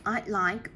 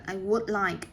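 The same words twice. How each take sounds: First: "I'd like" said as one short contraction; contracted I'd like. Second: Said in the usual way. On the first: Shown as a demonstration. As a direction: squeeze "I would" into "I'd like". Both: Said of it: "or you can say I'd like".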